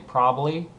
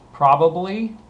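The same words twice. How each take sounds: First: The word is said quickly and informally. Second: The word is said carefully at normal speed.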